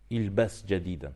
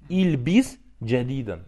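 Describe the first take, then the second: First: The first word is said with an 'a' vowel. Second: The first word is said with an 'i' vowel. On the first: It tells someone to wear something new. The speaker calls it right. "Правильно как сказать? Ильбас" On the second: It tells someone to confuse or muddle something new. The speaker calls it wrong. "Неправильно"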